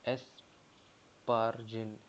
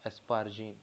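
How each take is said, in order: First: Very slow, every syllable of एस्पारजिन drawn out; slow spelled-out name. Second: Said in the usual way. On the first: Shown as a demonstration. Teacher sounding out एस्पारजिन for students, very slow and drawn out. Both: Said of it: "ग्यारहवाँ है एस्पारजिनिन".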